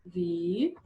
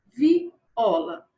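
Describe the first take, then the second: First: "viola" in three syllables with long pauses. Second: Said in the usual way. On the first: Shown as a demonstration. Teacher separating letter B's word, "viola" syllable by syllable. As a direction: hold and isolate each syllable of "viola". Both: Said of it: "vamos primeiro separar a sílaba".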